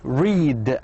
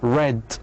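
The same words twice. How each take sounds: First: It is the present tense pronunciation. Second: It is the past tense pronunciation. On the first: The action happens now. "In the present we say read" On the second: The action happened before. "لكن في الماضي read"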